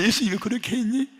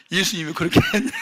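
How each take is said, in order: First: Gentler rebuke. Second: Loud, high, quick rebuke with a laugh in it. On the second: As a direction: scold him, half laughing. (웃음 섞인 빠르고 큰 꾸짖음) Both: Retold or imitated. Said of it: "막 그런 책망이 오는 거예요".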